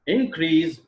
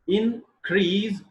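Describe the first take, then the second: First: "Increase" stressed on IN, slow; noun stress. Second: "increase" stressed on CREASE, slow; verb stress. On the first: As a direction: hit IN in "Increase". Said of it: "is noun". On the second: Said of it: "is verb". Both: Shown as a demonstration.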